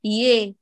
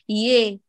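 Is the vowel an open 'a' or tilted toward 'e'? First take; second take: tilted e; tilted e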